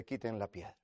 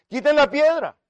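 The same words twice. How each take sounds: First: Low, very soft order; understated, hushed instruction; quiet command. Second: High, loud order; ringing shout to move the stone; shouted command. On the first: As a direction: say it softly and low, almost in passing. Jesus quoted, first take. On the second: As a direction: call it out with sudden authority. Jesus quoted again, commanding. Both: Acted.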